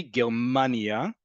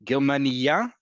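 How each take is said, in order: First: Very slow "Germania", ger-MAAA-nia; second-to-last syllable stress. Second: "Germania" stressed on its ending, ger-ma-ni-YA; last-syllable stress. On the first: Teacher saying the name of the country, "Germania" slowly stressed second to last. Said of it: "emphasis second to last". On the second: Teacher meaning a female German citizen, "Germania" stressed on the last syllable. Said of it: "is on the last syllable". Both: Shown as a demonstration.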